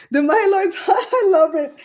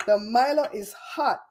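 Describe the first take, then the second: First: Laughing through the words, raised and louder; laughing while reading. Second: Said in the usual way. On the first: Real, not acted. Host laughing as she reads a viewer's comment.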